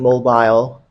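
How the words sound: It is said with a British pronunciation. "Britons say"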